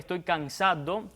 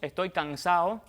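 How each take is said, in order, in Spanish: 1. La d de cansado se pronuncia claramente. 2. La d de cansado se debilita o se omite. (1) "en lugar de" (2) "a veces decimos"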